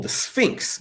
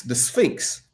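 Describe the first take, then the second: First: Whispered. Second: Said in the usual way. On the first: Real, not acted. Recalling gun name, whispered.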